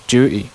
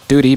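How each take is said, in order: First: It starts with j and drops the t. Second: It starts with d and keeps the t.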